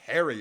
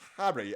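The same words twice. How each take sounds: First: The name is said without a British accent. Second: The name is said in a British accent.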